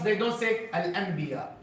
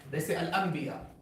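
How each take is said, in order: First: The n sound is said clearly, not merged. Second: The n sound merges into the next sound. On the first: The speaker calls it wrong. "they don't say" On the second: The speaker calls it right. "The Arabs make ikhfa and idgham and idhar and qalb"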